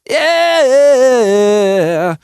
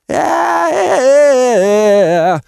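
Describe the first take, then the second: First: The voice has a tight, compressed, gritty distortion. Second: The voice has a loose, rattly fry distortion. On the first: "Which is a compression or false chord-based distortion" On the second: "That's Fry distortion"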